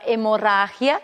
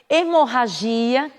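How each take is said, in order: First: The stress falls where Spanish places it. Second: The stress falls where Portuguese places it.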